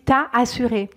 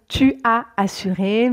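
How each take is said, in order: First: The vowel of tu is dropped. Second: The word tu is said in full. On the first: This is the informal, casual form. "on enlève également le U de tu" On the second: This is the standard, formal form. "on devrait dire tu as assuré"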